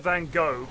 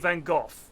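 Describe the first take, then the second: First: It is said the American way. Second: It is said the British way. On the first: "In America they say" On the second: "here we tend to say"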